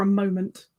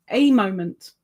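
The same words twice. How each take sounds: First: Said in the usual way. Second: "A" said as a full "ay", set apart; emphatic "A", meaning just one; stress on A. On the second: Real, not acted. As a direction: lean on "A", pronounced like the letter. Repeats, stressing the article.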